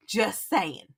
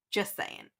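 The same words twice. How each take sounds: First: Said in the usual way. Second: Just saying, whispered with no voice; whispered aside. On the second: Real, not acted. Teasing John one more time, in a whisper. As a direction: breathe it as a sly aside. Repeats tag line, whispered.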